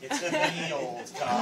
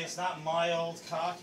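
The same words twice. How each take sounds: First: "me" said as "mee", slow; right form. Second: "my" said as "my", wrong; the wrong "my old cock"; wrong form. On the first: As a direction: correct "me old cock" slowly. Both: Shown as a demonstration.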